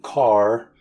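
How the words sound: The final R sound is pronounced.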